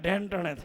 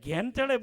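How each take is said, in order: First: The phrase is pronounced in a garbled, tongue-tied way. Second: The phrase is pronounced clearly and normally. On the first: The speaker calls it wrong. "જીભના તોતડા છે" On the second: The speaker calls it right. "ઘેન ચડે બોલતા નથી આવડતું"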